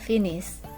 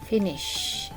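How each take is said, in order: First: The word ends without a 'sh' sound. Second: The word ends with a clear 'sh' sound. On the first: The speaker calls it wrong. "Bukan finish" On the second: The speaker calls it right. "Ada sh"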